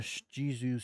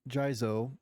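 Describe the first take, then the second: First: The name ends with an 'oo' vowel. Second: The name ends with an 'oh' vowel. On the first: The speaker calls it wrong. "Sorry if I've been pronouncing it wrong this whole time" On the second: The speaker calls it right. "I think it's Jizo, actually"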